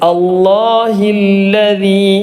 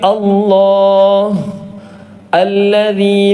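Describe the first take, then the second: First: The words run together without a pause. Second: There is a stop between the two words. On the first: "അവിടെ നിർത്താതെയാണ് ഓതിയത്" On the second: "അവിടെ നിർത്തുകയാണെങ്കിൽ"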